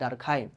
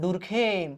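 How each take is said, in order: First: The first vowel sounds like 'ar'. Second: The first vowel sounds like 'oo'. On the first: This is how English-language videos say it. "ইংরেজি ভিডিওগুলো যদি আপনারা দেখেন দেখবেন যে তাকে সবাই বলতেছে" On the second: This is the common local reading of the spelling. "বাংলাদেশে আমরা ইউ দেখলেই খালি উ উচ্চারণ করতে চাই"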